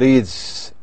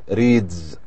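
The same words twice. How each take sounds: First: The word ends with a hissing s sound. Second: The word ends with a buzzing z sound. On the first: The speaker calls it wrong. "We can't say" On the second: The speaker calls it right. "we say"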